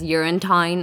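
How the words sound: The 'town' vowel is exaggerated in a mocking way. This is how classmates mockingly imitate the speaker's accent. "better known within our class as Urinetown"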